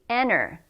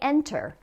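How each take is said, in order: First: The T sound is dropped entirely. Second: The T sound is clearly pronounced. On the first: "No T at all" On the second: "a lot of times people say enter"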